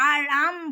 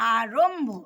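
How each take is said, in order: First: The r is followed by a long aa vowel. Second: The r is followed by a short o vowel. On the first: The speaker calls it wrong. "কিন্তু না, আরম্ভ নয়" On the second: The speaker calls it right. "কথাটা আরম্ভ"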